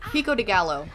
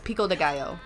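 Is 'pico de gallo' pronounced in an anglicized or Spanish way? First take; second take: anglicized; Spanish. First: It is said with an anglicized mispronunciation. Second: It is said with a Spanish-like pronunciation. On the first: The speaker calls it wrong. "I have never heard somebody mispronounce so many words at one time" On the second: The speaker calls it right. "No, it's pico de gallo"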